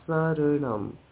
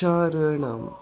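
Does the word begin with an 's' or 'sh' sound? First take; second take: s; sh. First: The word begins with a plain s sound. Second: The word begins with an sh sound. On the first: The speaker calls it right. "Sarinam, not Sharinam" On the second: The speaker calls it wrong. "not Sharinam"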